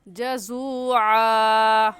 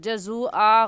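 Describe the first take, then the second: First: The 'ain' sound comes clearly from the throat. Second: The 'ain' sound is weak or missing. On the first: The speaker calls it right. "और सही कैसे है? जज़ूआ।" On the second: The speaker calls it wrong. "जज़ूआ गलत है"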